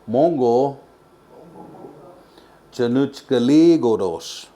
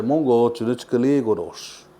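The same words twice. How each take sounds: First: The last part is drawn out and stressed hard. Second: The last part is said quickly and lightly. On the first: It makes the phrase easier to say. "the reason why I emphasize that last part" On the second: This is how people normally say it. "not as hard as I emphasize it"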